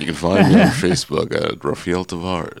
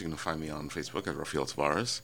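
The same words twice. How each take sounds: First: The sentence is spoken at a slower pace. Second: The sentence is spoken at a quicker pace.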